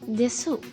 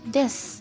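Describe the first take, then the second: First: The final u vowel is clearly pronounced. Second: The final u vowel is dropped entirely. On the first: The speaker calls it wrong. "this is written as desu" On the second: The speaker calls it right. "in spoken Japanese we pronounce it as this"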